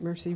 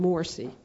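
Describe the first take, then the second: First: The name sounds like the English word mercy. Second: The name is said with an 'or' vowel, Morsi. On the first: The speaker calls it wrong. "describing the president of Egypt as Mercy" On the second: The speaker calls it right. "rather than Morsi"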